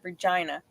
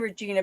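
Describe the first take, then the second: First: The middle vowel sounds like 'eye'. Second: The middle vowel sounds like 'ee'. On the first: It is how locals say it. The speaker calls it right. "but it's it's said Regina" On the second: It follows the spelling. The speaker calls it wrong. "a lot of people do say Regina because it's an E"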